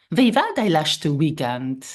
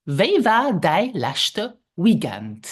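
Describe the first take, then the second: First: Said in the usual way. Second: Slow "Wie war dein letzte Weekend?" stretched out; slow repeat. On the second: Shown as a demonstration. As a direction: lead the repetition slowly. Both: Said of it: "Let's repeat".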